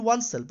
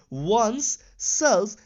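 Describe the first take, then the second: First: "oneself" run together quickly as one word; joined as one word. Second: "one's self" slowly, split into two words; two separate words. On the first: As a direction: say "oneself" quickly, with no gap before self. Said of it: "I have not written oneself". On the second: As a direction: pause clearly between "one's" and "self". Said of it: "I have written one's self". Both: Shown as a demonstration.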